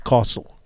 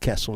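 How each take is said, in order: First: The first vowel is long, like 'car'. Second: The first vowel is short, with no 'ar' sound. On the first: The speaker calls it right. "where's the R in castle?" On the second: The speaker calls it wrong. "it's not castle"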